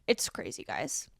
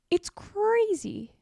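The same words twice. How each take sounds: First: Breathy whispered aside; whispering. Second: High, slow, stretched-out disbelief; drawn-out exasperation. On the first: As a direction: hush it, almost to yourself. Hushed aside after rant. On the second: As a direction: drag out "crazy" in disbelief. Exasperated rant about vendors. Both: Real, not acted.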